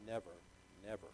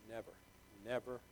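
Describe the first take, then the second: No difference in how they are said.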